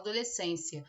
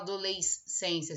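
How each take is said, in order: First: The s and c form one sound. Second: The s and c are sounded separately. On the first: The speaker calls it right. "a gente fala" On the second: The speaker calls it wrong. "A gente não fala"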